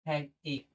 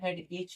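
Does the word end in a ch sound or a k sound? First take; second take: k sound; ch sound. First: The word ends with a k sound. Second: The word ends with a ch sound. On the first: The speaker calls it right. "एच नहीं बोलेंगे, एक बोलेंगे" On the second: The speaker calls it wrong. "बहुत लोग इसको head एच बोलते हैं।"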